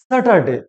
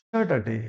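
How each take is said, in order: First: স্যাটারডে with open "a", "sa-tar-de"; mispronounced Saturday. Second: স্যাটারডে with "sya" to open it, lower; corrected Saturday. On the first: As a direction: say স্যাটারডে as a spelled "SA-tar-day". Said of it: "না, সঠিক উচ্চারণটা কি হবে?". (স্যাটারডে-র ভুল উচ্চারণ, "সাটারডে") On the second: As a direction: model স্যাটারডে low, first vowel as in "sat". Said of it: "সঠিক উচ্চারণটা কি হবে?". (স্যাটারডে-র সঠিক উচ্চারণ, "স্যা" দিয়ে) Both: Shown as a demonstration.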